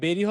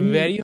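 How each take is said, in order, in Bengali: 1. শব্দটি b ধ্বনি দিয়ে শুরু হয়। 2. শব্দটি v ধ্বনি দিয়ে শুরু হয়। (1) "এই বি হবে নাকি ভি হবে" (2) "vo- sound okay"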